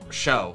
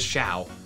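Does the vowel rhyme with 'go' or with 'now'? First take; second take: go; now. First: The vowel sounds like the one in 'go'. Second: The vowel sounds like the one in 'now'. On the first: The speaker calls it wrong. "I'm pretty sure it's not show" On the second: The speaker calls it right. "it is Shao"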